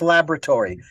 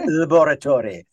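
First: It is said with an American pronunciation. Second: It is said with a British pronunciation.

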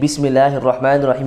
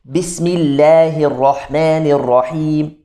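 First: The letters are said in a relaxed, natural way. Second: The letters are forced out and exaggerated. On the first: The speaker calls it right. "instead of saying" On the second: The speaker calls it wrong. "it's like a forced out ayn"

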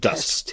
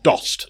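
First: The vowel sounds like the 'u' in 'dust'. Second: The vowel sounds like the 'o' in 'dose'. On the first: The speaker calls it right. "Dust, yeah" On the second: The speaker calls it wrong. "Dost, no"

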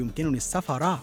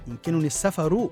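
First: The last word ends with an a vowel. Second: The last word ends with a u vowel. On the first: The travel is treated as the object of the verb. The speaker calls it wrong. "ولا تقل" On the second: The travel is the subject of the verb. The speaker calls it right. "قل"

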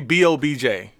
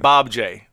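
First: Each letter is spoken separately. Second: It is spoken as a word plus a letter. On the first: The speaker calls it wrong. "you don't say B-O-B-J" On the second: The speaker calls it right. "you say"

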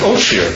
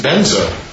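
First: It is said as oshir, with sh and r. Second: It is said as benza, with b and z. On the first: This is the Mongolian pronunciation. "the Mongolians pronounce it oshir" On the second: This is the Tibetan pronunciation. "they pronounce benza"

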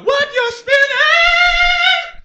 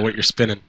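First: It is said with more energy and excitement. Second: It is said flatly, with little energy.

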